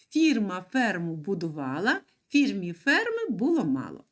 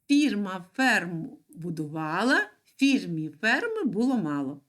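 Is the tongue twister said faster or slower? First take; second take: faster; slower. First: It is said at a faster pace. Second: It is said at a slower pace.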